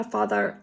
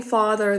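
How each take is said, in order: First: Father with a slight Utah twang; lightly imitated Utah Mormon accent. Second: Said in the usual way. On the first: Shown as a demonstration. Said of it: "they say a father". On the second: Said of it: "instead of saying father".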